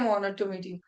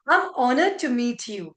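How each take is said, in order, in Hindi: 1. यह सपाट तरीके से, बिना खुशी के कहा गया है। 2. यह खुशी से, मुस्कुराते हुए कहा गया है। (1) "ऐसे नहीं ... ऑनर बोल रहा खुशी नहीं है" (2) "आप honored है तो स्माइल करना है क्योंकि आप खुश हो"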